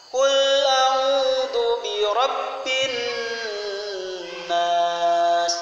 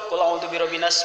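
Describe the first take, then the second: First: The n sound before nas is held longer. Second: The n sound before nas is short. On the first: The speaker calls it right. "kalau ketemu nun di tasdid ... rada ditahan" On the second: The speaker calls it wrong. "nah itu salah"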